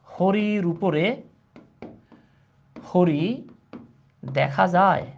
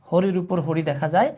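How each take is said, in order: First: Slow, with long pauses between phrases; word-by-word dictation. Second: Said in the usual way. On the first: Shown as a demonstration. Teacher dictating a Bangla riddle to class, in slow separated pieces. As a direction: dictate it piece by piece, leaving big gaps.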